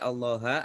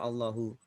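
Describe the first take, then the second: First: The word ends with an a vowel. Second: The word ends with a u vowel. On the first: "tidak boleh Allaha" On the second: "tidak boleh ... atau Allahu"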